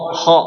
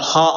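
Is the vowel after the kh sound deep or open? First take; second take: deep; open. First: The vowel is deep, narrowed and rounded. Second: The vowel is wide, open and bright. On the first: The speaker calls it right. "Kho kho" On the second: The speaker calls it wrong. "enggak kha salah ya"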